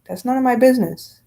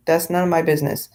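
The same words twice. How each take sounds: First: Dismissive. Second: Said in the usual way. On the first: Shown as a demonstration.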